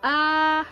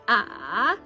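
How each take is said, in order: First: The pitch stays high and level. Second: The pitch dips down, then comes back up. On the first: "it's a full tone" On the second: "so it's up and down"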